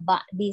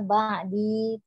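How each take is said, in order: First: The final vowel is cut short. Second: The final vowel is drawn out long. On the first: The speaker calls it wrong. "tidak ba'di saja" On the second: The speaker calls it right. "Jadi ba'di agak dipanjangkan sedikit ya"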